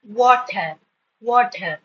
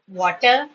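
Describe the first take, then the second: First: WATER slowly, in two separate beats; syllable demonstration. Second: Said in the usual way. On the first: Shown as a demonstration. Teacher showing two syllables are formed, slow demonstration. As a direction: stretch WATER out as wa-ter. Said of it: "So two syllables are formed".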